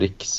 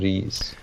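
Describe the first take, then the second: First: It is said with a k before the s. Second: It is said without a k before the s. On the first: The speaker calls it wrong. "man säger inte riks" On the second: The speaker calls it right. "men man säger ris"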